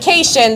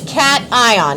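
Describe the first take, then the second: First: The word is said as one blended unit. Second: The word is said as two separate parts. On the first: The speaker calls it wrong. "This word is not cation" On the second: The speaker calls it right. "This word is cation. It is a compound word"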